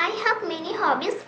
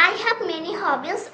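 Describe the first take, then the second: The two takes are said the same way.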